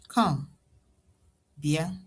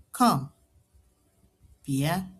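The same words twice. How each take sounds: The two takes are said the same way.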